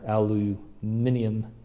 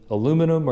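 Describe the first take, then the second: First: The word is said the British way, five syllables. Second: The word is said the American way, four syllables.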